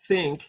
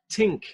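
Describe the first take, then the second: First: The word begins with an unvoiced th sound. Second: The word begins with a plain t sound. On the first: "you hear the unvoiced one" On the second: "they will substitute tink for the word think"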